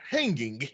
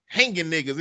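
First: "hanging" with its ending fully sounded; full final g. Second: "hanging" said as "hangin'"; dropped final g. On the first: Showing the standard form, "hanging" with full g. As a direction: finish "hanging" on a clear ng. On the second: Quoting the co-host's phrase, "hanging" as "hangin'". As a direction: let "hanging" end on a plain n. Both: Shown as a demonstration. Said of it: "instead of hanging".

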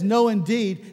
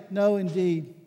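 First: "No" stressed, firm and falling; emphatic no. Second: Said in the usual way. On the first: Shown as a demonstration. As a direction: make "No, indeed" an emphatic refusal. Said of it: "It is emphatic". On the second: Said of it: "it's not a".

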